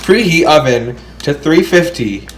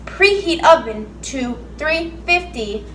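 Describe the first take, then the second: First: Flat robot voice reading instructions. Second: Slow, flat robot impression; imitating robot voice. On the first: Shown as a demonstration. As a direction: read it like a robot. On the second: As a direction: copy the robot reading, slowly. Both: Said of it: "You sound like a freaking robot".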